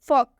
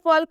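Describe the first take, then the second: First: The L sound is silent. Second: The L sound is pronounced. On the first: The speaker calls it right. "इसे हम फॉक पढ़ेंगे।" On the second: The speaker calls it wrong. "इसे भी हम फॉल्क नहीं पढ़ेंगे क्योंकि इसमें भी एल साइलेंट है"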